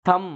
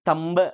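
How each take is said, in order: First: The word is said without a b sound. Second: The word is said with a b sound. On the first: The speaker calls it right. "థంబ్ అంటాం" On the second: The speaker calls it wrong. "తంబ్ అనము"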